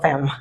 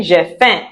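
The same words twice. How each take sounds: First: Faim with the final m sounded; wrong faim with an m. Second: J'ai faim with a nasal vowel, no final m; French nasal j'ai faim. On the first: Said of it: "It's not faim". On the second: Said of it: "Some of you have been saying". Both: Shown as a demonstration.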